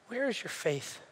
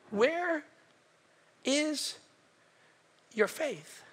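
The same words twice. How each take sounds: First: Quiet reproach. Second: "Where... is... your faith?" softly, a long pause between words; word-by-word reproach. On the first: Jesus to frightened disciples, quiet reproach. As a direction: ask it softly in one run. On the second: Jesus to disciples, "Where is your faith?" slowly word by word. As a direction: set WHERE, IS and YOUR FAITH apart, WHERE higher. Same question repeated word by word. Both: Retold or imitated.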